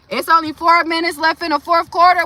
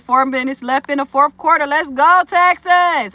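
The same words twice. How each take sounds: First: Excited. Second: Reading chat. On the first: Real, not acted. Watching the game, checking score. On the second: Retold or imitated. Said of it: "Judge Dredd says".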